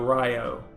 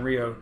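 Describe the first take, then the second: First: The name is said the Australian way. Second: The name is said the American way. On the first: "If you are in Australia, it, it's perfectly okay to go Rio" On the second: "in America you should say, be saying Rio"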